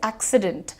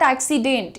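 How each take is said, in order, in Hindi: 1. आख़िरी syllable 'dent' हल्के से बोला जाता है। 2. आख़िरी सिलेबल 'dent' ज़ोर से बोला जाता है। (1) "डेंट, लाइट रखो" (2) "but it is not accident"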